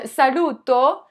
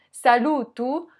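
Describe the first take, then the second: First: Saluto ending in a clear O; Italian saluto. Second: Saluto ending in U, salutu; Sicilian salutu. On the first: Vlogger showing the Italian form first, saluto ending in O. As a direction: say saluto with a slow, open final O. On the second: Vlogger showing the Sicilian version, saluto ending in U. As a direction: close the last vowel of saluto to U. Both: Shown as a demonstration. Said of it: "le O devient un U".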